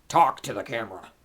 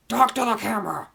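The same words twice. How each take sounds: First: Loud order at usual pitch; loud command. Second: High, very loud yell; shouted command. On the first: Vlogger ordering the cat to speak, loud command. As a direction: order it firmly and loudly. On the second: Vlogger yelling at the silent cat, high shouted command. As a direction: yell the order at the top of your voice. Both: Pretend.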